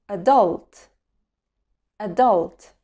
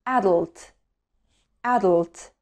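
Both takes have the same delivery.

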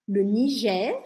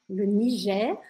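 No difference in how they are said.

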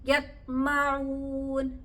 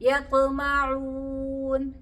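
First: The stopped consonant is held closed without release. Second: The stopped consonant is released with a slight echo. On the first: The speaker calls it wrong. "ഇവിടെ നമ്മൾ മറ്റക്ഷരങ്ങൾ പോലെ പറഞ്ഞു നോക്കിയാട്ടെ" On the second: The speaker calls it right. "അപ്പൊ നമ്മൾ എന്ത് പറയണം?"

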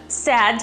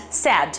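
The two takes are said the same way.

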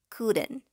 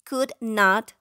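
First: The word not is contracted into couldn't. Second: The word not is said in full. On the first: "la forma contraída" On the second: "La forma larga"

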